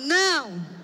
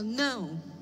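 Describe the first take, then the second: First: It is said strongly, angrily and with conviction. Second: It is said in a plain, mild way.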